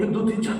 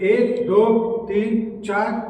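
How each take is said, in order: First: The numbers are counted quickly without gaps. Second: The numbers are counted with short gaps between. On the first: The speaker calls it wrong. "ऐसे नहीं करना है" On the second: The speaker calls it right. "Space देंगे ना, थोड़ा सा समय देंगे ना"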